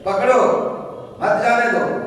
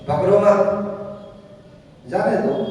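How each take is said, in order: First: The pause comes after पकड़ो. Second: The pause comes after मत.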